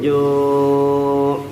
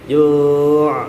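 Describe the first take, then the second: First: The final consonant is held without any bounce. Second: The final consonant is released with an echoing bounce. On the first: The speaker calls it right. "cukup kita tahan saja min ju'" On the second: The speaker calls it wrong. "nggak usah dipantulkan ... ju', itu keliru"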